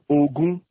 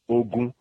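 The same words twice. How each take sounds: First: The first syllable is mid, the second high. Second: Both syllables are on a level mid pitch. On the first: It means the number twenty. "Remi, that's 20" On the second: It means war. "Riri, mid tone, both of them"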